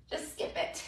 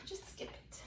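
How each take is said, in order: First: Soft aside; quiet. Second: Breathy whisper. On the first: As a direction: drop the voice low. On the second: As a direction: whisper it to yourself. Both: Real, not acted.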